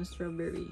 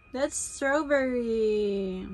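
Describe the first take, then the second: First: Said in the usual way. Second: Put-on strawberry drawn out very slowly, each syllable stretched for the baby; slow teaching voice. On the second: Shown as a demonstration.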